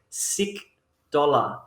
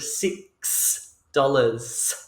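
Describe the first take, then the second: First: The final s sounds are left off. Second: The final s sounds are clearly pronounced. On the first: The speaker calls it wrong. "will say sick dollar instead of six dollars" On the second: The speaker calls it right. "instead of six dollars"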